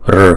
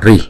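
First: The r is said with no vowel after it. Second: The r is followed by an i sound. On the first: "một số vùng miền khác họ đọc là r" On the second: "Có một số vùng miền ở Ấn Độ họ đọc là ri"

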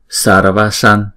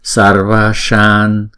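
First: The vowels are short and clipped. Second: The vowels are held for two beats. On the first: The speaker calls it wrong. "Chứ chúng ta không đọc là Sarvashan, Sarvashan là không đúng" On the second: The speaker calls it right. "Chữ Va là chúng ta đọc hai nhịp và chữ Sa này chúng ta đọc hai nhịp"

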